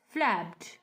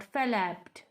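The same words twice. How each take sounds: First: Said in the usual way. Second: FLAPPED misread as "fa-lapped", extra vowel after the F; wrong two-syllable pronunciation. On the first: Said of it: "we have only one syllables". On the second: Shown as a demonstration. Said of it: "not flapped".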